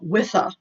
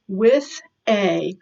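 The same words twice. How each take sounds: First: Said quickly, the two words run together. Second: Said slowly, each word clear and separate. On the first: "if you say it really quickly" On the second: "So this is with a"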